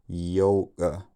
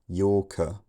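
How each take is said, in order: First: The k is made together with a glottal stop. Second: The k is followed by a puff of air. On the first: "he releases the glottal stop and the k sound at about the same time" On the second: "I just go from the first vowel into the k, then a few milliseconds of voiceless air"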